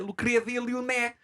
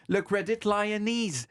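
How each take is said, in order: First: It is said with a Portuguese accent. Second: It is said with an English accent. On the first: "En portugais" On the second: "prononcé en anglais, ça fait"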